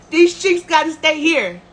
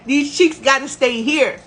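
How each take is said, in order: Both takes have the same delivery.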